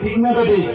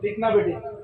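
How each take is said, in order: First: The question is asked more loudly. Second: The question is asked at normal volume.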